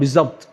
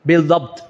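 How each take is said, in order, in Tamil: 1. 'bi'க்கு அடுத்து z ஒலி வருகிறது. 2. 'bi'க்கு அடுத்து அழுத்தமான d ஒலி வருகிறது. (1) "அச்சு சொல்லுவாங்க பிஸ்அப்ட்" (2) "அசல் என்னது?"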